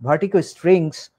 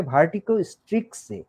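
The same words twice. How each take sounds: First: "স্ট্রিংস" with ng before the final s; "স্ট্রিংস" ending in ng-s, no k; corrected word. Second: "স্ট্রিক্সে" with a ks sound before the final vowel; "স্ট্রিক্সে" ending in k-s-e; misspelt word as written. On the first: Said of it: "খুব সম্ভবত এটা হবে". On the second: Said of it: "এখানে লেখা আছে". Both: Shown as a demonstration.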